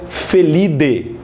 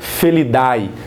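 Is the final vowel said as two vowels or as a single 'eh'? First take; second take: single eh; two vowels. First: The ending is said as a single 'eh' sound. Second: The ending is said as two vowels, 'a-e'. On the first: The speaker calls it right. "você pronuncia Felide" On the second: The speaker calls it wrong. "você não pronuncia Felidae"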